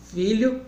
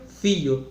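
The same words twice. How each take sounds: First: Said in the usual way. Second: "fio" for filho, lh turned into an i sound; caipira lh as i. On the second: Shown as a demonstration. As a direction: say "fio", dropping the lh. ("fio" com lh caipira virando i) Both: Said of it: "milho, mio".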